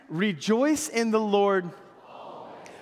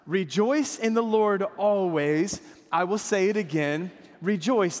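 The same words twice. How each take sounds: First: Slow reading with "always" stressed. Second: Said in the usual way. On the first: Shown as a demonstration. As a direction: lean on "always" at the end. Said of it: "emphasize the always if you can". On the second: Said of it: "You read it with me this time".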